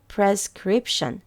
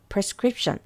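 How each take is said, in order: First: The word is said at a slow pace. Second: The word is said at a quick pace. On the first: "조금 천천히 해볼게요" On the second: "조금 빠르게"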